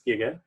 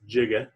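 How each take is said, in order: First: The word begins with a hard g sound. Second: The word begins with a soft j sound. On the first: The speaker calls it right. "it's pronounced giga" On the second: The speaker calls it wrong. "It's not pronounced giga"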